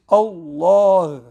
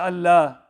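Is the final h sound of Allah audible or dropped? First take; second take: audible; dropped. First: The word is full and the final h is heard. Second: The word is thin and the final h is dropped. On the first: The speaker calls it right. "we have to recite it properly, which is Allah. Make sure you mention the ha at the end" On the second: The speaker calls it wrong. "in a thin tone. They say Allah. And they even don't recite the ha"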